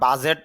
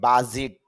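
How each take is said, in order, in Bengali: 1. দ্বিতীয় স্বরধ্বনিটি 'bet'-এর 'e'-এর মতো শোনায়। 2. দ্বিতীয় স্বরধ্বনিটি 'bit'-এর 'i'-এর মতো শোনায়। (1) "যদিও আমরা বাজেট বলি" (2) "ইংরেজি যে উচ্চারণটা বাজিট"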